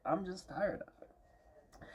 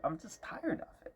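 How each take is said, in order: First: Soft and slow, drained of energy; worn-out sigh. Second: Weary, soft. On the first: Vlogger trailing off, exhausted and quiet. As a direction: let it sag out slowly, exhausted. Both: Real, not acted. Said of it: "I'm tired".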